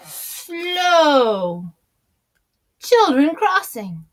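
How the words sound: There is a pause after 'slow'.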